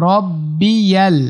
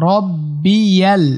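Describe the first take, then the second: No difference in how they are said.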